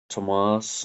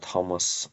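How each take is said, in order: First: The final syllable is stressed. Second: The final syllable is not stressed. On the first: It is the southern way to say it. "Tomas and Kieran are southern pronunciations" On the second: It is the northern way to say it. "Thomas and Kieran are northern pronunciations"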